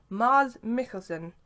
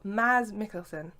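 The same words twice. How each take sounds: First: "Mars" with a long, open ah; long-A pronunciation. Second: "Maz" with a short a; short-A pronunciation. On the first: Fan attempting an actor's name, "Mars" with long ah. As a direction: say "Mars" slowly, vowel as in father. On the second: Fan offering another attempt at the name, "Maz" with short a. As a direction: say "Maz" slowly, vowel as in jazz. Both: Shown as a demonstration. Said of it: "excuse me for butchering the name".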